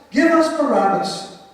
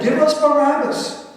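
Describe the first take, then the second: First: High, loud chant, stress on us; chanted, crowd shouting the name once more; crowd chant again. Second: High, loud chanted demand; chanted, shout it like a mob; a mob chanting its demand; crowd chant. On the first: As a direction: keep the mob's chant going. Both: Acted.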